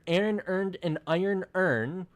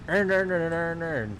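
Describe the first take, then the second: First: Each word is said clearly and distinctly. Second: The words blur together into one sound.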